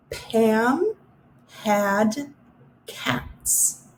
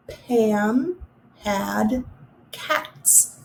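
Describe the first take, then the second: First: Slow, mouth open wide on the ah; stretched ah vowel. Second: The ah sound slowed and clear, cats fading; stretched ah vowel. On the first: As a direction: draw out the middle ah in each word. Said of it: "Listen for the middle of the word". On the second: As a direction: show the open-mouthed ah. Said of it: "Do you see how my mouth was open". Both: Shown as a demonstration.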